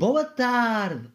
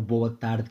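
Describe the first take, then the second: First: It is said loudly and with energy. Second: It is said quietly and flatly.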